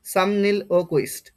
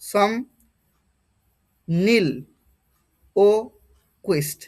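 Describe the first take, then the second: First: Said in the usual way. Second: সম, নীল, ও, কুইস্ট with long pauses between; each part of সম নীল ও কুইস্ট said separately; syllable-by-syllable pronunciation. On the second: Shown as a demonstration. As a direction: sound out সম নীল ও কুইস্ট piece by piece. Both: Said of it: "এ ধরনের আসবে".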